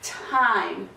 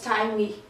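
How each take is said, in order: First: The word ends on the consonant, no extra vowel. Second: An extra vowel sounds after the final consonant. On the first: The speaker calls it right. "ele fica silencioso, ele fica time" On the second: The speaker calls it wrong. "Não falamos time com o I no final"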